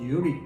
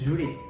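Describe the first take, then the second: First: It is said in a southern Saigon accent. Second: It is said in a northern Hanoi accent. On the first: "호치민에서는" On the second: "하노이에서는"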